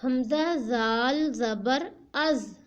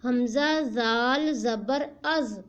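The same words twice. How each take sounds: First: ہمزہ زال زبر از drawn out slowly, each part separate; teacher demonstrating ہمزہ زال زبر از step by step; slow spelled-out demo. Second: Said in the usual way. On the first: Shown as a demonstration. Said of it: "پہلے حمزہ پڑھا، پھر زال". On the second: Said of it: "پھر حمزے کے اوپر جو زبر ہے اس کو پڑھا".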